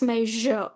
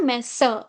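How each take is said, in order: First: The middle consonant is a buzzing 'zh' sound. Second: The middle consonant is not a 'zh' sound. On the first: The speaker calls it right. "it's measure. Je" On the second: The speaker calls it wrong. "it's not measure"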